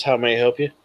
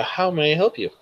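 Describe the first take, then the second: First: Said in the usual way. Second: Lightly voiced assistant, pitched up; a hint of a computer's helpful prompt; automated assistant. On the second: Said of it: "and then it says".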